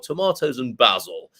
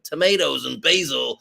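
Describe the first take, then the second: First: It is said in a British accent. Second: It is said in an American accent. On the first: "if you're from the uh, United Kingdom" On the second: "I'll do the American version first"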